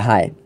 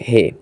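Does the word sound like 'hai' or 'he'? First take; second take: hai; he. First: The vowel is a diphthong, like 'hi'. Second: The vowel is a plain 'e', like 'heh'. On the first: This is how people from Pakistan itself say it. "আমি এটার উচ্চারণ করি হায়" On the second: This is how speakers with mixed backgrounds say it. "অনেকেই রয়েছে এর উচ্চারণ করে হে"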